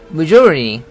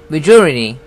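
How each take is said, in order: First: The t sound is softened and weak. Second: The same.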